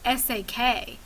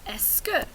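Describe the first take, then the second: First: It sounds like separate spelled-out letter sounds. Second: It is said as two smooth syllables, ess-kuh. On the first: The speaker calls it wrong. "will mispronounce it, something like S A K" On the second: The speaker calls it right. "this is the S and this is the que"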